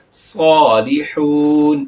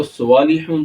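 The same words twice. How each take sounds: First: صالحون with a thick drawn s at the start; heavy saad. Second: Said in the usual way. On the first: Shown as a demonstration. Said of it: "اس کو ہم پڑھیں گے صالحون". (صالحون میں صاد موٹا) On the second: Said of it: "صالحون تو نہیں پڑھیں گے".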